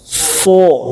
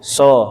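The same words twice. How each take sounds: First: The syllable is heavy, with the voice raised. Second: The syllable is thin, with the voice kept low. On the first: "Yang kedua naik" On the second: "Pertama yang tipis dulu"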